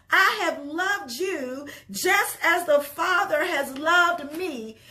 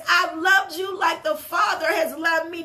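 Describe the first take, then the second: First: Slow reverent reading. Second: "I've loved you like the Father has loved me" thrown out loud and fervent; preached loud. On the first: Preacher first reads the verse to the church, slow and gentle. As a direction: read the verse slowly and gently. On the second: Preacher restating the verse to the church, now loud and fervent. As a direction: proclaim "loved" with full force. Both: Shown as a demonstration. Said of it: "He says".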